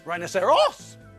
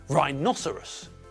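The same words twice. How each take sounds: First: The stress is not on the second syllable. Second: The stress is on the second syllable. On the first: The speaker calls it wrong. "and not rhinoceros" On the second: The speaker calls it right. "the stress comes on the second syllable. Rhinoceros"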